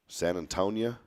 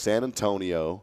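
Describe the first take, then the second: First: The name ends with an "-ia" sound. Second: The name ends with an "-io" sound. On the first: "Have you ever heard of that one?" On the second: "three different ways to pronounce it"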